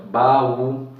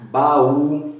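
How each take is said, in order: First: Baú slowly as ba-ú, vowels apart; split syllables. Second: Said in the usual way. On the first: Shown as a demonstration. Teacher splitting baú for the class. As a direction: draw out baú in two beats. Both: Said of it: "eles se separam".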